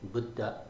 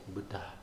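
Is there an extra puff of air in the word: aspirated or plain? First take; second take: plain; aspirated. First: It is said flatly, without a puff of air. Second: It is said with a little puff of air. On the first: The speaker calls it wrong. "said flatly" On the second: The speaker calls it right. "There's a little extra puff of air"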